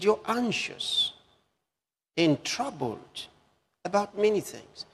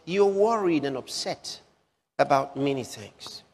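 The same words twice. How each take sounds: First: Slow, weighing each word, you're high; slow, stressed quote. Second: Said in the usual way. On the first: Shown as a demonstration. Preacher quoting Jesus to his congregation, slow and stressed. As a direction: let each phrase land, slowly. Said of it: "He said". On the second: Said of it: "he said".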